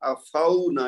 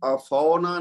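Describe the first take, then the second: First: The vowel is said softly, as a gliding diphthong. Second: The vowel is said hard, in an Urdu style. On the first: The speaker calls it right. "यहाँ पे वाव लीन है" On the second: The speaker calls it wrong. "इसको हमने अफौना नहीं कहना"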